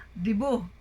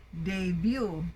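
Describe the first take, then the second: First: "debut" said dee-BOO; Filipino pronunciation. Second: "debut" said day-BYOO; correct pronunciation. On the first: Teacher imitating what Filipinos say, "debut" as dee-BOO. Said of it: "Among Filipinos, we hear". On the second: Teacher correcting Filipino habit, "debut" as day-BYOO. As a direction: put ay and a y glide in "debut". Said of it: "it should be debut". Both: Shown as a demonstration.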